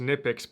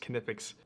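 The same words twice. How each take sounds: First: The word starts with an n sound, no k. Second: The word starts with a k sound before n. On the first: The speaker calls it wrong. "I always thought it was just Knipex" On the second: The speaker calls it right. "apparently you pronounce the K"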